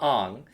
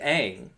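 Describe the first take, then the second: First: The vowel sounds like the 'o' in 'long'. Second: The vowel sounds like the 'a' in 'bang'. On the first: The speaker calls it wrong. "not Ong" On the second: The speaker calls it right. "his name is Aang"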